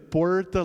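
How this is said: The R sounds like an American English R. "like an American R"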